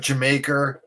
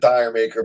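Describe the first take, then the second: First: The title sounds like the word Jamaica. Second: The title sounds like dire maker. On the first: This is how the band says it. "that's how they pronounce it" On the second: This is how the speaker used to say it. "I used to pronounce it Dire Maker"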